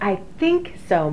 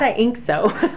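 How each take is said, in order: First: The th sound at the start of think is pronounced. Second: The th sound at the start of think is dropped. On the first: This is how local people say it. The speaker calls it right. "she said, I think so, Mom" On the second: This is the speaker's own regional way of saying it. The speaker calls it wrong. "not I ink so. So that's very Pittsburghese"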